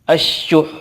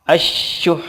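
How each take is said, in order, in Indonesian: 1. Akhirannya konsonan akhir yang ditekan dan berdesah. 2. Akhirannya konsonan akhir yang ditekan dan berdesah.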